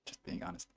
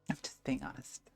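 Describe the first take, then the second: First: Whisper. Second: Said in the usual way. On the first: Real, not acted. Repeats compliment, first take whispered.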